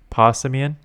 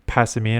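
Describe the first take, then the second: First: The first syllable sounds like 'paw'. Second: The first syllable sounds like 'pass'. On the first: The speaker calls it right. "like a paw, like a cat" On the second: The speaker calls it wrong. "I used to say Passimian or something like that"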